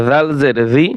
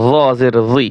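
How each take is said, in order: First: "জি" with a light Arabic dhal; light dhal sound. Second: "জি" with a heavy, emphatic Arabic zoa; heavy zoa sound. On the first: Teacher contrasts similar letters, "জি" with light dhal. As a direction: say "জি" thinly, tongue between the teeth as in "this". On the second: Teacher contrasts similar letters, "জি" with emphatic zoa. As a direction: thicken the consonant of "জি", back of tongue raised. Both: Shown as a demonstration. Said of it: "একটা হরফের উচ্চারণ অন্য হরফের সাথে মিলে যায়".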